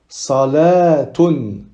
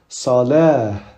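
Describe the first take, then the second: First: The ending is pronounced with a t sound. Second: The ending is pronounced with an h sound. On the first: The reading continues after the word. "on continuer, on prononce le tamarbuta comme un ta" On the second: The reading stops on the word. "Si on va s'arrêter dessus, on va le prononcer comme un ha"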